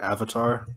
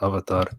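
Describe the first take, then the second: First: It is pronounced the common American English way. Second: It is pronounced the speaker's own traditional way. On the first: This is how outsiders say it. "traditionally that's not how we say Avatar" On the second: This is how the speaker's community says it. "We say Avatar"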